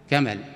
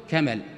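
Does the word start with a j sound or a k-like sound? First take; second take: k-like sound; k-like sound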